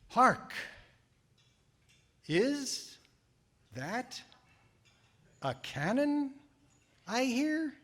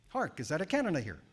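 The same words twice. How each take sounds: First: It is said very slowly. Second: It is said very fast.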